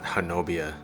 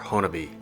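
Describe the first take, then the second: First: The name is said the way outsiders say it. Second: The name is said the way locals say it. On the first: The speaker calls it wrong. "not Honobia to the locals" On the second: The speaker calls it right. "it's actually pronounced Honabi"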